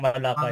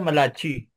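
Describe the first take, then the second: First: The name ends with a 'kai' sound. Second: The name ends with a 'chee' sound. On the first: This is the reading the speaker did not use. The speaker calls it right. "Hindi ko binabasa yung Malakay" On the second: This is how the speaker used to read it. The speaker calls it wrong. "Ang basa ko dito, Malachi"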